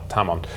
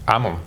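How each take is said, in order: First: The name is said without the L sound. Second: The name is said without the T sound. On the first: "it could be a silent L" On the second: "Or a silent T"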